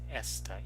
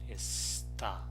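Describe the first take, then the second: First: The stress is on the first syllable. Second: The stress is on the last syllable. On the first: "the stress syllable in this other word is esta, is s" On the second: "The stress syllable is the last one"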